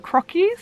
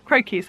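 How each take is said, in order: First: "croquis" tried as "CROCK-ees", short o, high questioning rise; questioning pronunciation. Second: "Croquis" said as "CROW-keez", long o, falling tune; settled pronunciation. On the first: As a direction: say "croquis" unsurely with the o of "rock", lifting high. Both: Shown as a demonstration. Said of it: "I think that's how you say it".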